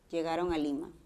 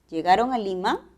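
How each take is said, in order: First: The voice falls at the end. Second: The voice rises at the end.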